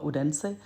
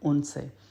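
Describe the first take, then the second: First: It is pronounced the English way, with a clear d. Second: It is pronounced the Danish way, with the d dropped. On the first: "English में प्रोनाउंस करेंगे तो वो होगा उडेंसे" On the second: "Danish में बोलेंगे तो वो होगा उनसे"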